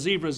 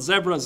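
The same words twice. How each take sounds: First: The word is said the local way. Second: The word is said the Canadian way. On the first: "They're zebras down here" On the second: "We call them zebras in Canada"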